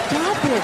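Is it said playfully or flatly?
playfully. It is said in a playful, teasing way.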